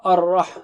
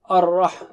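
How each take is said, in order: First: The R is heavy, thick and strongly sounded. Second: The R is heavy, thick and strongly sounded.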